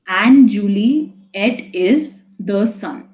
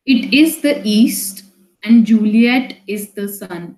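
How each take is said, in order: First: "And Juliet is the sun" very slow, each weak-strong beat marked; iambic stress reading. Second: Slow, even reading of a Shakespeare line; slow poem reading. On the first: Teacher slowly scans the iambic beat for the class. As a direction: tap out the iambs: da-DUM da-DUM. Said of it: "the first syllable is a little less stressed and the next syllable is more stressed". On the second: Teacher reads the Romeo and Juliet line slowly to students. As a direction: read the verse aloud slowly to the class. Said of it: "I read the first line and now the second line".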